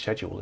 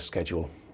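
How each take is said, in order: First: It is said with a British pronunciation. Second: It is said with an American pronunciation. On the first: "actually it is it, it's schedule, isn't it?" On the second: "I know you Americans say schedule"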